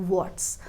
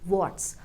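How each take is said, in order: The two takes are said the same way.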